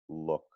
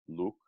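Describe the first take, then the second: First: The vowel is relaxed, less pure and less rounded. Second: The vowel is tense, pure and strongly rounded. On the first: The speaker calls it right. "it can be slightly more relaxed" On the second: The speaker calls it wrong. "it's not going to be like"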